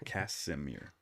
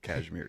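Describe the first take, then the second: First: It is said as Casimir. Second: It is said like the word cashmere. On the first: The speaker calls it right. "You're right, Casimir" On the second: The speaker calls it wrong. "You keep saying Cashmere"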